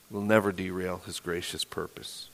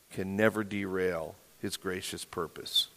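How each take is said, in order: First: Softer, lower reaffirmation; hushed emphasis. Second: Quiet emphasis. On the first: Pastor reassuring the congregation, hushed and low. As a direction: say it again, hushed and certain. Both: Real, not acted. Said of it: "repeated for emphasis".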